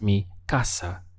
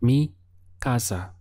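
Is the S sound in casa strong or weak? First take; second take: strong; weak. First: The S sound in casa is stronger. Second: The S sound in casa is weaker.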